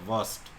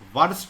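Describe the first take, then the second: First: The r sound is left silent. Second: The r sound is clearly pronounced. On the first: The speaker calls it right. "आर silent है" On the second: The speaker calls it wrong. "वर्स्ट नहीं बोलते हैं"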